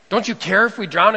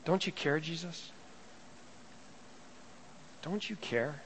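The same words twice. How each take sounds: First: Loud, frightened demand; panicked plea. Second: Soft, pleading question; hushed plea. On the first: Frightened disciples waking Jesus in the storm, loud panicked plea. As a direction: shout it over the storm in panic. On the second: Preacher echoing the disciples' plea to Jesus, soft and hushed. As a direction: let it sink, nearly under the breath. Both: Retold or imitated.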